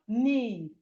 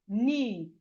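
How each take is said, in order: The two takes are said the same way.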